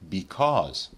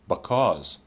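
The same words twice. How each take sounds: First: It is said in its full, careful form. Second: It is said in a somewhat reduced form.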